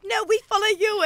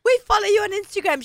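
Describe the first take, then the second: First: High, retold "No, we follow you"; retold insistence on "we follow you"; turning it around. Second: High-pitched starstruck fan; retold fan excitement. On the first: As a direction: throw "we follow you" back, pitched high. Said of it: "She's like". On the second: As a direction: gush a little, pitched well up. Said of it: "we were all, like, starstruck".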